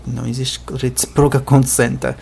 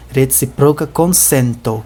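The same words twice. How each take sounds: First: Said in the usual way. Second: Consento with a clear final O; consento ending in O. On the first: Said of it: "tá errado". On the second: Shown as a demonstration. Teacher corrects consenta to consento. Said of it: "com um O aqui no final".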